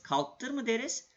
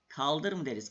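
First: "Kalktır" asked high and doubtful; rising "Kalktır mı", as if absurd; teacher tests the wrong "Kalktır"; wrong form. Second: "Kaldır" said plainly, falling; teacher confirms the right "Kaldır"; correct form. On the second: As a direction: settle on "Kaldır" calmly. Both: Shown as a demonstration.

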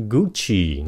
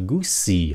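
First: "Gucci" with a ch sound, GOO-chee; correct Gucci. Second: "Gucci" with an s sound, GOO-see; mispronounced Gucci. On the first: Teacher models the brand name for learners, correct ch in "Gucci". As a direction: say "Gucci" with ch in the middle. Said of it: "âm ch". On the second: Teacher imitates learners' mistake, s sound in "Gucci". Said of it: "Nhiều bạn phát âm là Gucci". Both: Shown as a demonstration.

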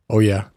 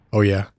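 The two takes are said the same way.

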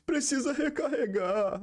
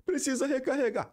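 First: High, slow, whiny dubbed soldier line; imitating a badly dubbed game voice; mock crying dub line. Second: High, falling whine of a dubbed hero; imitating a scared dubbed character; mock crying dub line. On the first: Gamer mocking the Brazilian dub, whiny high voice. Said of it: "e o boneco fica assim". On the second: Gamer mocking the dub, crying hero in front of a demon. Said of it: "o cara vai chorar".

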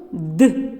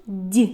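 First: Д as hard, unpalatalized "d"; hard consonant. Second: Д as palatalized "d'"; soft consonant. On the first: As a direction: isolate Д with a firm dark release. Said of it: "Це твердий приголосний звук". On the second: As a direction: isolate Д with the tongue raised. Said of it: "Це м'який приголосний". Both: Shown as a demonstration.

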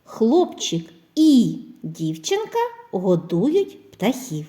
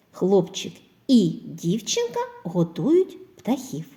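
First: Хлопчик і дівчинка годують said slowly, і stressed; slow dictation. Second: Said in the usual way. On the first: Shown as a demonstration. (повільне диктування) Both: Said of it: "речення із словом І".

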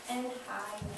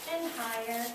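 The two takes are said the same way.

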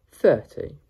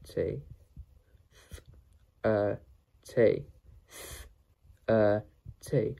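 First: Said in the usual way. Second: "thirty" split into Th, er, t with pauses; sounded out. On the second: Shown as a demonstration. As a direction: isolate each sound of "thirty", holding the Th. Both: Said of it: "How to pronounce".

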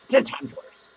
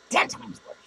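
First: Ten times worse, pushed up high; emphatic repeat. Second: Ten times worse, breathed as an unvoiced whisper; whispered echo. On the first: Pretend. Podcaster taunting his few listeners, emphatic and raised. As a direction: hit ten hard as a mock taunt. Repeats insult, then echoes it. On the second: Podcaster echoing his taunt to listeners, whispered aside. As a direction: echo it under your breath.

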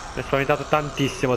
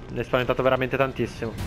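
First: Said in the usual way. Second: Rushed, tumbling repeat; fast relieved repeat. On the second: Real, not acted. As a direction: rattle it off quickly in relief.

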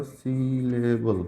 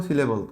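First: "syllable" stretched very slowly into its syllables. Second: Said in the usual way. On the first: Shown as a demonstration. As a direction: break "syllable" into slow, separate syllables. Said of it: "এখানে দেখো". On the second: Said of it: "syllable কি জিনিস".

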